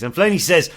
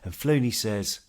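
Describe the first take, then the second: First: The voice is plain and ordinary. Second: The voice is soft and soothing. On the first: "I think I will do this bit in a normal voice" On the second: "let my soft, relaxing voice take you away"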